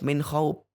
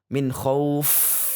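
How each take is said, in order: First: The final consonant sounds like a P. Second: The final consonant sounds like an F. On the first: The speaker calls it wrong. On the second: The speaker calls it right.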